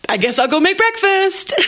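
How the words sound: It is said in a happy, cheerful tone. Making breakfast is a fabulous thing. The speaker calls it right. "It's got to be happier than that"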